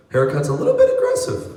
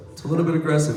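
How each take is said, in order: First: Much higher, fast "aggressive" squeak; high squeaky take. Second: Said in the usual way. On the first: Shown as a demonstration. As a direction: jump way up and rattle it off.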